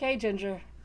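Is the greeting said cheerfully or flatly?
flatly. The greeting sounds flat and unenthusiastic. The speaker calls it right. "I'm just like"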